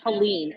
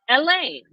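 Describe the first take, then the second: First: The name is said an English way. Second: The name is said the French way. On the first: The speaker calls it wrong. "being pronounced the wrong way... everybody's calling it Helene" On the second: The speaker calls it right. "the pronunciation of my middle name... is Elaine. It's the French pronunciation"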